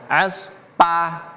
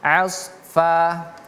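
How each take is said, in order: First: The middle consonant sounds like a P. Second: The middle consonant sounds like an F. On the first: The speaker calls it wrong. "Jangan kita baca aspa" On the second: The speaker calls it right. "tapi asfa"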